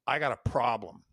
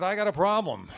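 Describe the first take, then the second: First: Said in the usual way. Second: Higher and louder, nervously echoing the line; a rookie forcing out the boss's words; nervous repeat. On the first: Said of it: "my boss goes". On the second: Retold or imitated. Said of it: "And so I said".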